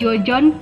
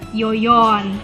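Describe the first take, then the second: First: The name uses 'j' sounds. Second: The name uses 'y' sounds.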